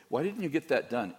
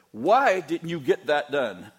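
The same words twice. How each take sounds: First: Said in the usual way. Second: Loud, slow angry demand; yelled version. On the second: Shown as a demonstration. Pastor showing how his mild question lands on staff as a shout. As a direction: bark it like a furious boss. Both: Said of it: "It sounds like I said".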